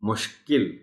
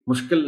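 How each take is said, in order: First: A clear i follows the k. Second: The vowel after k is not i. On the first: The speaker calls it right. "काफ के नीचे जेर का खास ख्याल रखा जाना चाहिए" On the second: The speaker calls it wrong. "मुश्किल नहीं"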